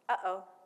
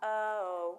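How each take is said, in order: First: A short catch in the throat separates the syllables. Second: The two syllables run together without a break. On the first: The speaker calls it right. "That little break right there, that's the glottal stop" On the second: The speaker calls it wrong. "It's not uh-oh"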